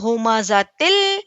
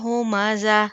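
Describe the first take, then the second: First: The word keeps its ending and runs into the next. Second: The word ends with a stop, ending cut off. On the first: The reader continues without pausing. "अगर हमने यहाँ पर रुकना नहीं है" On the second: The reader pauses at the verse end. "यहाँ पर आयात है एक्चुअली"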